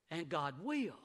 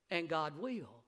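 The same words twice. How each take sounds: The two takes are said the same way.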